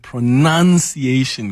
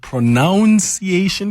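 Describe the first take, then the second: First: The second syllable sounds like 'nun' in enunciating. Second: The second syllable sounds like 'nounce' in pronounce. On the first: The word is related to enunciating. "or is it pronunciation because you are enunciating?" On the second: The word comes from the verb to pronounce. "is it pronunciation because you pronounce"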